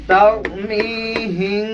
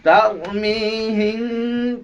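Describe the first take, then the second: First: তারমিহিম slowly with a nasal হিং at the end; correct recitation. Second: তারমিহিম drawn out very slowly; slow recitation. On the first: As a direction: draw out তারমিহিম, ending in the nose. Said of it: "উচ্চারণটা দেখেন". (তারমিহিম ধীরে, শেষে নাকে গুন্না) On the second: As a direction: stretch তারমিহিম like Quran recitation. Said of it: "তারমিহিম কি?". (তারমিহিম খুব ধীরে টেনে) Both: Shown as a demonstration.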